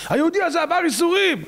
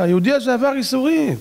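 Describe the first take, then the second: First: Very high, emphatic proclamation; retold advocate's high-pitched appeal; insistent angel's plea. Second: Raised-pitch objection on the man's behalf; retold advocate interrupting the court; angel's plea. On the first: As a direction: cry out in his defence. Angel repeats plea more insistently. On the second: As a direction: plead his case, pitched up. Angel pleads in heavenly court.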